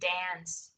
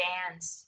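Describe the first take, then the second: First: It is said in an American accent. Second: It is said in an American accent.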